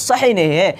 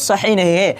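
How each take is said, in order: No difference in how they are said.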